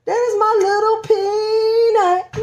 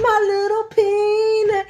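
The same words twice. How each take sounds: First: "my little Peanut" sung slowly and high; tender high crooning; sing-song coo. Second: "My little Peanut" crooned high and slow again; sung, high slow lullaby echo. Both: Real, not acted. Cooing at baby bump.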